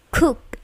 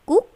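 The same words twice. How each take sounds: First: The K is released with a puff of air. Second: The K is soft, without a puff of air. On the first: The speaker calls it right. "tetapi cook with plosive ya" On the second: The speaker calls it wrong. "Bukan cook"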